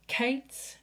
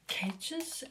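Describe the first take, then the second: First: The name is said without a J sound. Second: The name is said without a T sound. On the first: "the J is silent" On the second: "the T is silent"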